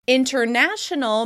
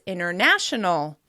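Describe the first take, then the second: First: The T after the N is clearly pronounced. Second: The T drops, so it starts like inner.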